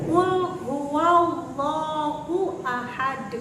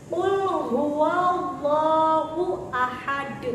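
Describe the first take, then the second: Both takes have the same delivery.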